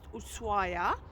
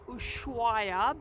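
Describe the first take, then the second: First: The name is said without an sh sound. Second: The name is said with an sh sound. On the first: This is how local people say it. The speaker calls it right. "the locals tell me it's pronounced" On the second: This follows the written spelling. The speaker calls it wrong. "We mispronounce it um, because it's spelled S H"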